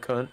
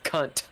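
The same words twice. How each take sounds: First: The final T sound is left off. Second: The final T sound is clearly pronounced. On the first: The speaker calls it wrong. "you said it like all Kentucky" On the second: The speaker calls it right. "you have to pronounce the T"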